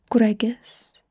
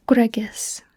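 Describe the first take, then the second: No difference in how they are said.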